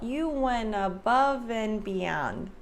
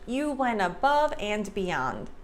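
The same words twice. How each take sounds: First: The word 'and' is reduced without a D. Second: The word 'and' is said fully with a clear D. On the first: The speaker calls it right. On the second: The speaker calls it wrong.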